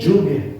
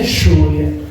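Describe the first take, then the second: First: The 'll' sounds like a soft 'y'. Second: The 'll' sounds like a drawn-out 'sh'. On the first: This is how the visitor says it. The speaker calls it right. "se dice lluvia" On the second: This is how the locals say it. The speaker calls it wrong. "muy arrastrado, muy sh"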